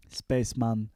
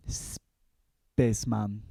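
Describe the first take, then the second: First: Said in the usual way. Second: Drawn-out title. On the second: Acted.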